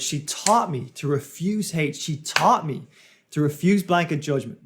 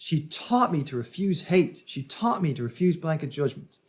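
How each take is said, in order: First: "taught" and "refuse" punched harder than the words around them; emphasis on key words. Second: Cadenced phrases, beats on "taught" and "refuse", easing off by "judgment"; rhythmic delivery. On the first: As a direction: hit "taught" and "refuse" with firm stress. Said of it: "puts emphasis on different words". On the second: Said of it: "The rhythm of how he spoke changes". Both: Shown as a demonstration.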